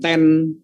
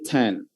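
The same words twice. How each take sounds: First: The t at the start is weak and soft. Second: The t at the start is strong and puffed. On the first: The speaker calls it wrong. "Jadi bukan ten" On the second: The speaker calls it right. "tapi ten, ten. ... Agak ada T T T T-nya"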